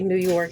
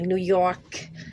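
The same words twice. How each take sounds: First: It is said in a plain Buffalo accent. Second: It is said in a New York City accent.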